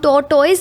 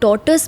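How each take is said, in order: First: The word ends with a 'toyz' sound. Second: The word ends with a short 'tus' sound. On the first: The speaker calls it wrong. "हम टॉर्टॉइज नहीं बोलते" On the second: The speaker calls it right. "हम टॉर्टस बोलना चाहिए"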